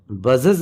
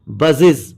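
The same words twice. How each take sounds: First: A looser e vowel in the ending of बजेस; wrong "ez" ending. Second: Short i and buzzing z ending बजेस; correct "iz" ending. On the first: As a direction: say बजेस as "buz-ez". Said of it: "नहीं होता". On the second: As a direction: say बजेस as "buz-iz". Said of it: "ईएस को इज पढ़ेंगे". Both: Shown as a demonstration.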